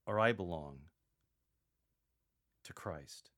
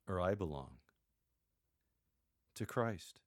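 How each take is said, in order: First: Earnest and grave, stress Christ; serious and sincere. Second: Sincere, with a pause before to Christ; earnest and unhurried, stress Christ; serious and sincere. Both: Shown as a demonstration. Paul naming true allegiance to the Corinthians, sincerely. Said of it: "in a very serious and sincere tone".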